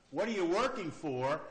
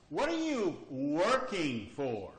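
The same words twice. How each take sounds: First: "working" stressed with a rise. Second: "are" stressed, said slowly. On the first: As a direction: lean on "working". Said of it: "Let's ask it emphasizing a different word". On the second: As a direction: hit "are" and take it slow. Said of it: "emphasizing a different word". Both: Shown as a demonstration.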